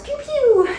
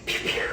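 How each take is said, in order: First: Pew, pew pitched way up like a laser gun; Star Wars blaster noise. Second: Pew, pew whispered like a tiny blaster. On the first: Instructor to class, playful high Star Wars blaster pew. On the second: Instructor to class, whispering laser sounds. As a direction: breathe the pew, pew out with no voice. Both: Shown as a demonstration. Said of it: "makes me think of Star Wars".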